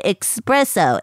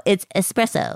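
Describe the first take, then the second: First: Espresso slowly as "ex-presso", quoting the mistake; imitated mispronunciation. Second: Said in the usual way. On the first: Shown as a demonstration. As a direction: stress the wrong K in espresso, "EX-presso". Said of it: "you said espresso". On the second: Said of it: "No, you said espresso".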